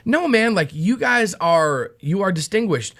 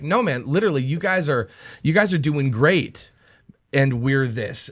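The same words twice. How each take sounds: First: A touch of sarcasm, voice up a bit; mock-praise with a slight dig; lightly sarcastic imitation of Paul; snarky Paul. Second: Quieter, earnest imitation of Paul; mean it plainly, no snark; softer, literal praise, lightly voiced; sincere Paul. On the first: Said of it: "is he digging". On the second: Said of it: "Is he being snarky or is, is he like".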